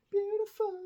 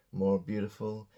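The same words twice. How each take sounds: First: Beautiful squeaked very high; high squeaky beautiful. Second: Said in the usual way. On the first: Shown as a demonstration. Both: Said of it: "teacher repeating word".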